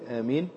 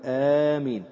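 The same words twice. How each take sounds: First: The first vowel is kept short. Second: The first vowel is drawn out long. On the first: "ويجوز فيها القصر" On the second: "تمدها هكذا"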